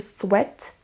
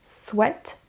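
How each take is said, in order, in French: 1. Le mot se prononce avec une voyelle à l'anglaise. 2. Le mot se prononce avec une voyelle à l'anglaise.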